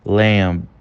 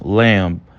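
Both takes have the same delivery.

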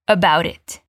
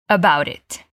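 Both takes have the same delivery.

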